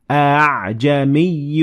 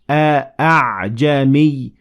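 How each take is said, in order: First: The sound after the first vowel is softened, lighter. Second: The sound after the first vowel is full and heavy. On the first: The speaker calls it right. "make it less heavily pronounced" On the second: The speaker calls it wrong. "instead of saying"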